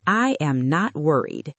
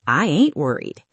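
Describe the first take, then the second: First: Careful full "I am not worried"; every word clear in "I am not worried"; textbook English. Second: "I ain't worried" with punch on "ain't"; cool, casual "I ain't worried"; song English. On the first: Teacher shows textbook English: careful "I am not worried". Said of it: "Textbook English". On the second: Teacher shows song English: casual "I ain't worried". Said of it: "Song English". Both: Shown as a demonstration.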